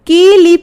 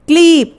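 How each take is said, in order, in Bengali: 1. k ও l-এর মাঝে একটি i স্বরধ্বনি আছে। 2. k ও l যুক্ত, মাঝে কোনো স্বরধ্বনি নেই। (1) "কয়ের পরে একটা ই ধ্বনি আসছে" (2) "কয়ের সাথে ল"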